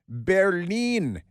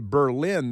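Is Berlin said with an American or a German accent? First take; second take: German; American. First: It is said with a mock German accent. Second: It is said with a plain American accent. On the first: The speaker calls it right. "like Colonel Klink" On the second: The speaker calls it wrong. "That's the American pronunciation of Berlin"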